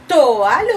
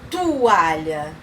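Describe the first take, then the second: First: "toalha" with a clear o, to-A-lha. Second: "toalha" said as tu-A-lha. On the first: Teacher offers children the right option, "toalha" with a clear o. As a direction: keep the o in "toalha". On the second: Teacher offers children the wrong option, "toalha" said as tu-A-lha. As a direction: turn the o of "toalha" into u. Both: Shown as a demonstration. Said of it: "É toalha ou toalha?".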